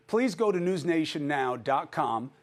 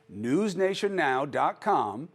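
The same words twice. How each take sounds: First: Said in the usual way. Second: Slower, spelling out news nation now dot com; slow repeat. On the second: Shown as a demonstration. Host slowly repeats the website address for viewers.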